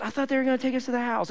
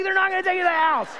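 First: Higher, quick, unforced innocent reply; innocent child. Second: Very high, fast mock yelling; exasperated shout. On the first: Retold or imitated. Henry to dad after missing his stop, innocently. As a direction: imitate a kid's guileless explanation. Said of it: "just innocently". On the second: Dad to son after missing the stop, exasperated shout. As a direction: act out a dad's incredulous comeback.

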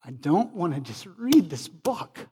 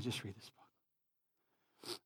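First: "read this book" in emphatic, swooping peaks; emphatic declaration. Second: Low, soft and slow; subdued, low-pitched reflection; hushed repeat. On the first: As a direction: READ and BOOK lifted high and punched. Preacher's emphatic first take. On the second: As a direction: drop it to a quiet, sober restatement. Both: Real, not acted.

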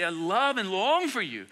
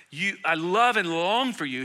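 First: Slow, tender "I love and long for you"; loving pastor. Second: Slow, tender reading of "love and long"; tender Paul. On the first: Pastor voicing Paul as a loving pastor, tender and slow. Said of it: "He's a loving pastor". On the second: Pastor voicing Paul's longing for his church, slow and tender. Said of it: "He sounds more like the, the beloved Apostle John, who's so tender, so kind". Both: Retold or imitated.

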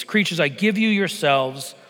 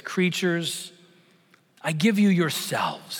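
First: A hint of a glad, strong lion king; lightly voiced Aslan, glad and strong; strong happy voice. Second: Said in the usual way. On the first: A narrator's reading. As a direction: lift it a little with joy. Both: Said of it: "said the strong, happy voice of Aslan".

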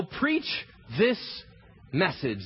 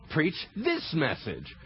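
First: Said in the usual way. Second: Slow, with "this" leaned on and falling; "Preach this message" slow, pressing hard on "this"; stress on this. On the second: Shown as a demonstration. Preacher telling disciples to preach only this message, stressing "this". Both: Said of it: "don't preach your own opinion".

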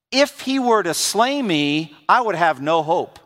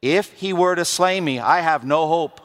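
First: First take, rising on "If" and drawn out; "If he were to slay me" read slowly, leaning on "If"; slow dramatic reading. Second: Repeated reading, stress on "were"; "were" leaned on, then "I have no hope" set apart; slowly again. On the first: Preacher reading the verse to the church, slowly and deliberately. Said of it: "Let me say it again". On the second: Preacher repeats the verse so it sinks in, slow and weighty. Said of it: "Let me say it again slowly". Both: Shown as a demonstration.

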